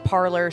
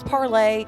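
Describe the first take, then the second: First: The name ends with an 'or' sound. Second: The name ends with an 'ay' vowel. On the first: This is how most people mistakenly say it. The speaker calls it wrong. "everybody's stupid and kept calling it Parlor" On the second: This is the name's original pronunciation. The speaker calls it right. "It was Parlay"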